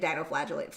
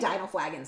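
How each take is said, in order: First: The word ends with a longer 'flagellates' sound. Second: The word ends with a short 'flagons' sound. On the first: The speaker calls it right. "It's like dinoflagellates" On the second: The speaker calls it wrong. "I always say dinoflagons. That's not how you say it"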